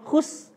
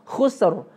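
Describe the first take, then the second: First: The word ends on S with no R. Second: The word ends with an audible R. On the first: The speaker calls it wrong. "biasanya kita ngomong cuma khus gitu doang. Ro-nya korupsi" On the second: The speaker calls it right. "Pastikan ada bunyi ro di situ"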